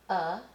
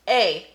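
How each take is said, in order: First: The vowel is a reduced 'uh' sound. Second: The vowel is a full 'ay' sound. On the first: The speaker calls it right. "we're going to use a, the schwa" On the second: The speaker calls it wrong. "you might look at that and say, A, A. And then you would write A. But do you say A?"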